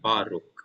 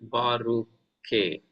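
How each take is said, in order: First: The word ends on the final consonant. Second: The word ends with an extra vowel sound. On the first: The speaker calls it right. "I said it is Baruch" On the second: The speaker calls it wrong. "this Shiva will not be pronounced ... not Baruche"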